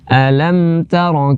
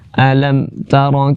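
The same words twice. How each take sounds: First: The m is held for a moderate length. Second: The m is cut off abruptly with no movement. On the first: The speaker calls it right. "tapi per pertengahan" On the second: The speaker calls it wrong. "jangan dibaca mati dengan semati-matinya ... mati tanpa gerakan sama sekali"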